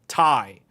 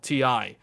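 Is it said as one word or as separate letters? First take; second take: one word; letters. First: It is said as a single word. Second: It is said as two separate letters. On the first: The speaker calls it right. "But it's actually called Ti" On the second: The speaker calls it wrong. "It is not called T I"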